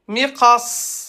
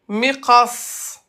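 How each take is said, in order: Both takes have the same delivery.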